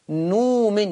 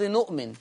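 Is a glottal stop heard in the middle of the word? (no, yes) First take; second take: no; yes. First: A long u replaces the glottal stop. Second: A glottal stop is heard before the vowel. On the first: "يقول نومن، يبدلها واو" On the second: "لفظ نؤمن"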